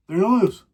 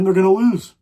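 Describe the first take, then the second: First: Said in the usual way. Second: Louder ranting cry that they lose; a fan's loud outburst; frustrated yell. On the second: Real, not acted. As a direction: yell it out, fed up. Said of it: "I just scream so much".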